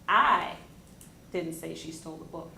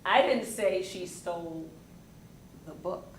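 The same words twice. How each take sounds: First: The stress is on the word I. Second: The stress is on the word say.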